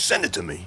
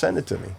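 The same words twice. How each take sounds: First: It is said in an imitated, put-on voice. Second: It is said in the speaker's ordinary voice.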